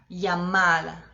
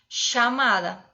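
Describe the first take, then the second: First: The double L sounds like a 'y'. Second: The double L sounds like an 'sh'. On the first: This is how people speak in parts of Spain. "na Espanha teria um som de I" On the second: This is the most typical Argentine way. "como se fosse um X"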